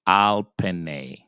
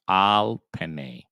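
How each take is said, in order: First: "al penne" with a clear ah and a long n; "al penne" said like a teacher; Hebrew reading "al penne". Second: "Al penne" said again, the stress on "Al"; "Al penne" said like a teacher; Hebrew reading "Al penne". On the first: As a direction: sound out "al penne" slowly. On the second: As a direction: repeat "Al penne" firmly. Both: Shown as a demonstration. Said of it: "the word is gonna be pronounced".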